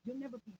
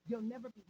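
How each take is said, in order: Both takes have the same delivery.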